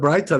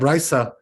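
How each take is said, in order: First: The middle consonant is a T sound. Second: The middle consonant is an S sound. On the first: "instead of Braita" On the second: "that's the S sound, and that's like a samech"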